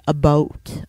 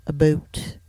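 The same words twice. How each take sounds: First: "about" said like "a boat", lower; Canadian "about". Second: "about" said like "a boot", softer; Canadian "about". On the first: Demonstrating how Canadians will say it, "about" as "a boat". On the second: Demonstrating what Canadians will say, "about" as "a boot". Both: Shown as a demonstration. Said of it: "Canadians will say".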